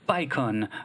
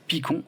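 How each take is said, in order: First: The name is said with an English pronunciation. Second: The name is said with a French pronunciation.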